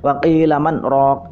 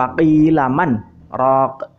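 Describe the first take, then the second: First: The words run on without a pause. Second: There is a short pause after 'man'. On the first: The speaker calls it wrong. "tidak boleh waqilaman rok, itu masih nyambung" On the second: The speaker calls it right. "berhenti dulu"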